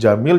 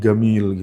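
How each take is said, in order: First: The name begins with a j sound. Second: The name begins with a hard g sound. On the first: This is the standard Arabic reading. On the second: This is how Egyptians read it.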